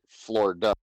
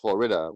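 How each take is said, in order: First: The middle 'i' vowel is dropped. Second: The middle 'i' vowel is pronounced. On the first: This is how people from Florida say it. "we say Florida" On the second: This is how most other people say it. "we don't say Florida"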